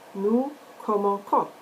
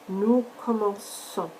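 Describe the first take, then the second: First: The middle consonant is a hard K sound. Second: The middle consonant is a soft S sound. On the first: The speaker calls it wrong. "When you pronounce this verb as it is written, ... that sounds wrong" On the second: The speaker calls it right. "now your sound is going to be the S sound"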